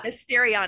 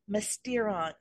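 First: Every vowel sound in the name is pronounced. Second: One vowel sound in the name is dropped. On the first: The speaker calls it right. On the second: The speaker calls it wrong.

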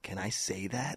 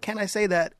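First: It is asked in a scary, loaded way. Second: It is asked in a plain, innocent way. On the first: The asker has a hidden, threatening subtext. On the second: The asker sincerely wants permission.

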